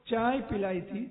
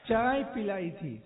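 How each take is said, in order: The two takes are said the same way.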